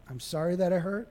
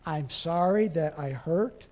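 First: Soft sorry stressing I; apology on I. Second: Gentle apology. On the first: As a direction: own the hurt gently. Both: Shown as a demonstration. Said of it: "And don't say you, just point".

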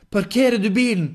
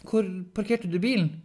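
First: High, very loud sudden outburst; involuntary blurt. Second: High, loud but more controlled question; hesitant repeat. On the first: Henrik's mouth speaking by itself, shouted blurt. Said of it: "Kom det ut av Henrik". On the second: Henrik repeating the question when asked, controlled but insistent. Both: Acted.

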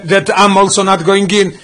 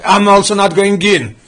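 First: I'm hit hardest, the rest slow and even; stress on I'm. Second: Slow, with "also" carrying the main weight and a falling end; stress on also. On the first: Teacher showing the class where the emphasis falls, stressing I'm. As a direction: lean on "I'm" as if to say "I too". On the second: Teacher repeating the verse to the class, now stressing also. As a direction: lean on "also" as if to say "also not". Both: Shown as a demonstration. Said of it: "What is the emphasis here?".

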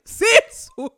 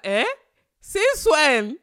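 First: Much higher and louder, laughing through "Since when?"; laughing disbelief. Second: Loud, higher, stunned "since when?"; shocked disbelief. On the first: Host repeats her reaction to his claim, laughing loudly in disbelief. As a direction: crack up while repeating the question. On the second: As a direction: blurt it out in sheer disbelief. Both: Retold or imitated. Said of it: "I was like".

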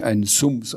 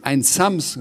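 First: "Sums" said with an oo vowel; "Sums" in place of Sams, offhand; mispronounced name. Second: "Sams" stressed high with an ah vowel; raised-pitch, insistent "Sams"; called-out correction. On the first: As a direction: casually garble the name as "Sums". Fireman garbles the name Sams. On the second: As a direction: correct the name firmly, punching "Sams". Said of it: "rief sie". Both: A narrator's reading.

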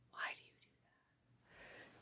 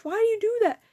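First: Slow, barely audible whisper; whispered question. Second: High-pitched exasperated question; exasperated scolding. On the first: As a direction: whisper it very slowly under the breath. Startled aside to something nearby. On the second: Scolding after finding it was Stitch. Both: Real, not acted.

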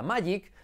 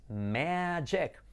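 First: "magic" as MAH-yeek; pronunciación errónea. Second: "magic" slow, MEH-jek; pronunciación correcta. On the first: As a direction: say "magic" with open a, y and ee. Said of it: "pensabas que se decía magic". ("magic" mal dicho, «mayik») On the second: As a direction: draw out "magic" with short e vowels, hard j. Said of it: "Y no, es magic". ("magic" lento, «meee-dchek») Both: Shown as a demonstration.

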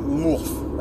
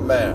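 First: "moof" as a tongue-slip for "math"; a stumbled "moof" in place of "math"; fumbled word. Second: Said in the usual way. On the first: Shown as a demonstration. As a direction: trip over "moof" before landing on "math". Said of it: "at math". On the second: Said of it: "let's see how good I am at".

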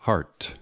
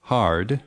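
First: Heart ending in a crisp /t/; heart, closing on a sharp t; option B. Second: Hard ending in a voiced /d/; option A. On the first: Teacher reading choice B, heart with a t ending. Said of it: "or B". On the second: Teacher reading choice A, hard with a d ending. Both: Shown as a demonstration.

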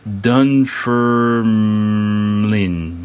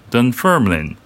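First: Dunfermline drawn out very slowly, syllable by syllable; careful first try at a hard name; sounding out slowly. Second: Dunfermline said at normal speed with a firm falling end; final take of the tricky name; settled pronunciation. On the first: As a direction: feel your way through Dunfermline, slowly. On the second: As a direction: land on Dunfermline with confidence. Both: Shown as a demonstration. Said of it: "I'm gonna really mess up this name".

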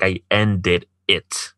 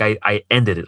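First: "ended it" drawn out at half speed; slow emphasis. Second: Said in the usual way. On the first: Real, not acted. Man proud he broke it off, "ended it" slow and emphatic. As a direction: separate and stretch "ended it" for weight.

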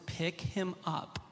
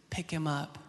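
First: Slow, soft, weighted command; Lord's repeated command. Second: Holy Spirit speaking. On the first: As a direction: spell it out word by word, quietly insistent. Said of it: "the second time, the Lord says". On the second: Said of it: "the Holy Spirit speaks to me". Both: Retold or imitated.

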